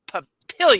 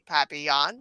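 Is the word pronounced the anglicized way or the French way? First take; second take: anglicized; French. First: It is pronounced the anglicized local way. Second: It is pronounced the French way. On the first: The speaker calls it right. "No, no, we say Papillion" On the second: The speaker calls it wrong. "which is indeed French for butterfly, but we don't say papillon"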